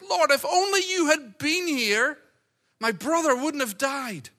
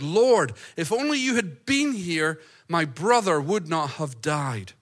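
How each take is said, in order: First: It is said in a pained, hurting voice. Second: It is read in a plain, neutral voice.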